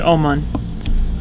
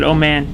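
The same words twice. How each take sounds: First: It does not sound like 'oh man'. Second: It sounds like the phrase 'oh man'. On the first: This is how some other people say it. "Some people pronounce it Oman" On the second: This is how the speaker says it, because it sounds cooler. "I pronounce it Oman because it sounds cooler"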